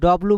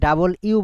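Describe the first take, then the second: First: The letter is said as one short word. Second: The letter is said as two separate words. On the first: The speaker calls it wrong. "এটাকে আমরা কিন্তু ডব্লু বলি" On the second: The speaker calls it right. "ওইটা আমরা হচ্ছে ডাবল ইউ বলবো"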